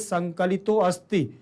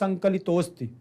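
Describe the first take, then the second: First: A separate 'a' vowel is clearly heard between words. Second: The words merge with no separate 'a' vowel heard. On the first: The speaker calls it wrong. "तो आ समझ में आएगा" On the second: The speaker calls it right. "तो आ समझ में नहीं आ रहा"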